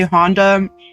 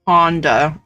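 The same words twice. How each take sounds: First: The name is said with an American accent. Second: The name is said with a British accent. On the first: "Honda is American" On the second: "Honda is British"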